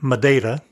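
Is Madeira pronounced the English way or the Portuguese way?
Portuguese. The name is pronounced the Portuguese way. "I unconsciously use the Portuguese pronunciation"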